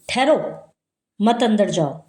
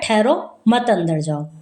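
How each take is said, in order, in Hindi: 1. पहले शब्द के ठीक बाद विराम है। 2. शब्द बिना विराम के एक साथ जुड़ते हैं। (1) "मना कर रहा है कि वे अंदर मत जाओ, ठहर जाओ" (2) "हमने अल्प विराम हटा दिया"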